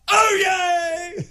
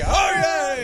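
First: It is said flamboyantly, with extra flair. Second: It is said plainly, without much flair.

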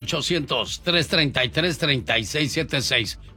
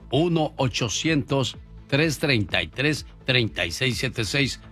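First: The number is said at normal speed. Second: The number is said more slowly.

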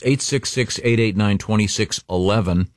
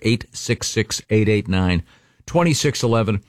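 First: The number is said at normal speed. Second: The number is said more slowly.

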